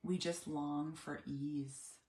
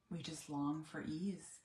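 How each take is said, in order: First: Weary sigh. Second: Weary sigh, softer. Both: Retold or imitated. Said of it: "we'll both say".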